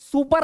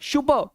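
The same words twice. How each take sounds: First: The word begins with an s sound. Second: The word begins with an sh sound. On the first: The speaker calls it wrong. "सुपर नहीं" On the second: The speaker calls it right. "शू, स नहीं"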